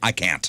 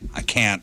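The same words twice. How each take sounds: First: It is said in a put-on teenage-girl voice. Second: It is said in his own voice.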